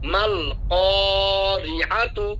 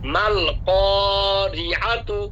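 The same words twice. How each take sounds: Both takes have the same delivery.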